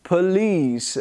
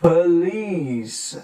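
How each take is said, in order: First: "police" as "puh-LEECE"; careful "police" with weak first vowel; schwa demo. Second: "police" stretched as "puhhh-leeece"; drawn-out teaching model of "police"; exaggerated schwa. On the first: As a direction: neutral "uh" in first syllable of "police". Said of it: "schwa sound with unstressed weak". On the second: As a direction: linger on both syllables of "police", first one "uh". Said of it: "I'm trying to exaggerate". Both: Shown as a demonstration.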